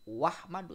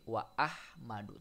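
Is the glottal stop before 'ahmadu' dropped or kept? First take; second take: dropped; kept. First: The glottal stop is dropped, words run together. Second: The glottal stop is kept before the second word. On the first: The speaker calls it wrong. "tidak dibaca wahmadu" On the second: The speaker calls it right. "tapi wa ahmadu"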